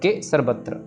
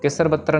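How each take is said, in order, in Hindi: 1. अक्षरों का समूह इस तरह है: ke, फिर sarvatra। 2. अक्षरों का समूह इस तरह है: kesar, फिर batra। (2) "केसर बत्र नहीं कहना"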